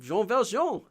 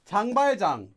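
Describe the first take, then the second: First: The name is said with French pronunciation. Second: The name is said with Korean pronunciation.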